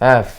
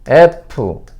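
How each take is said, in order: First: English accent, with air between lip and teeth. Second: Korean accent, with a p-like sound. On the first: "영어 F" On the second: "한글 F"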